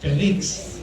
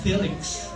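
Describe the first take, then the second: First: It is said with a Filipino accent. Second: It is said with an American-style accent. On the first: "Kung Pinoy tayo" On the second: "pag medyo uh, medyo slang"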